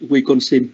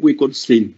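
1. Phát âm kiểu Việt, không có giọng đi xuống. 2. Phát âm kiểu Mỹ, giọng đi xuống. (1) "Còn chúng ta ở đây thì chúng ta gọi là Wisconsin" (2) "người Mỹ thì người ta gọi là Wisconsin. Cái âm của người ta, cái cách nói của người ta nó đi xuống"

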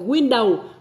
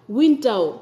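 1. Hai âm tiết được nhấn đều nhau. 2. Âm tiết đầu đi lên, âm tiết thứ hai đi xuống. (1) "không phải window" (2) "win đi lên, đầu đi xuống"

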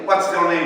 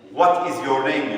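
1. "what is" sözcükleri kısaltılmış ve hızlı söylenir. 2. "what is" sözcükleri tam olarak söylenir. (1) "Amerikalılar da diyelim what's your name diyorlar. Yani hızlı konuşuyorlar" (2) "what is your name diyor İngilizler"

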